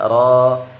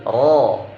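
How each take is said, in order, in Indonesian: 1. R-nya tipis, dengan bunyi yang tipis. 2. R-nya tebal, dengan bunyi yang tebal. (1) "Tidak ro" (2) "tapi tebal"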